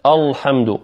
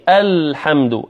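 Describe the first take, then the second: First: الحمد with a dark, thick L; heavy lam. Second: الحمد with a thin front A and clear L; light hamza and lam. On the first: Teacher imitating a recitation error, dark lam in الحمد. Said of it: "ويفخم اللام". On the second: Teacher showing the correct reading, light الحمد. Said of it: "مع أن اللام والهمزة مرققتين". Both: Shown as a demonstration.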